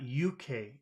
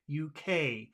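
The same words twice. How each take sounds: First: The stress falls on the first letter. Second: The stress falls on the final letter. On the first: The speaker calls it wrong. "it's not U K. It's the opposite" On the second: The speaker calls it right. "you always put the emphasis on the final letter"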